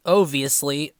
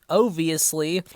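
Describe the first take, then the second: No difference in how they are said.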